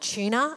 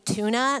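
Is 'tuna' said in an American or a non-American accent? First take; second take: non-American; American. First: It is said with a non-American accent. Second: It is said with an American accent. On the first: This is how the speaker's own community says it. "not tuna" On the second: This is how people in America say it. "They say tuna"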